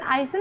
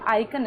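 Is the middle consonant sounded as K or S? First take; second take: S; K. First: The middle consonant is an s sound. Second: The middle consonant is a k sound. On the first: The speaker calls it wrong. "लेकिन आइसन नहीं है" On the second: The speaker calls it right. "आइकन है"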